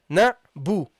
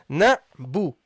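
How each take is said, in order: The two takes are said the same way.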